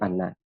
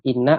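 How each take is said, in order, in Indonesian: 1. Vokal pertama adalah bunyi a. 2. Vokal pertama adalah bunyi i. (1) "ataupun kita baca fathah" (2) "boleh kita baca kasrah"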